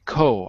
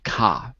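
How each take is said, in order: First: The first vowel is a rounded 'o' sound. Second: The first vowel is an open 'ah' sound. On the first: This is the British way of saying it. "I don't say co" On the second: This is the American way of saying it. "I say ka because it's American"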